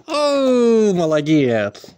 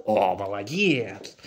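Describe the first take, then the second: First: High, loud delighted praise; excited praise. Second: Said in the usual way. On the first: Real, not acted. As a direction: cheer the dog loudly. Dog comes when called.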